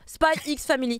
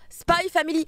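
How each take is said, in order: First: The title is said with an X word. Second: The title is said without an X word. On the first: The speaker calls it wrong. "Arrêtez de dire Spy X Family" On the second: The speaker calls it right. "la même chose pour Spy Family"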